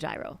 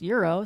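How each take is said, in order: First: The word starts with a J consonant sound. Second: The word starts with a Y-like vowel sound. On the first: This is how the speaker personally says it. "I would say gyro" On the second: This is how Greek speakers say it. "how do they pronounce the G like a U or? Well, it's euro"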